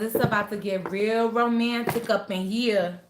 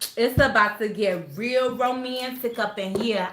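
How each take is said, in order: First: It is said in the speaker's ordinary accent. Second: It is said in a put-on New York accent.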